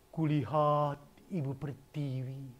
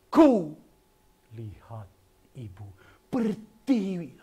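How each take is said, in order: First: Ku and pertiwi get no extra emphasis. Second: Ku and pertiwi are clearly emphasized. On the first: The speaker calls it wrong. "Jangan begini" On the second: The speaker calls it right. "Tapi harus begini"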